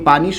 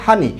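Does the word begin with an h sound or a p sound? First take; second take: p sound; h sound. First: The word begins with a p sound. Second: The word begins with an h sound. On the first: This is the standard pronunciation. "ঢাকাতে আমরা বা অন্যান্য অঞ্চলে আমরা পানি বলতে" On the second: This is the regional dialect pronunciation. "নোয়াখালীর যে বন্ধুরা আছে তারা সেটাকে কি উচ্চারণ করে? হানি।"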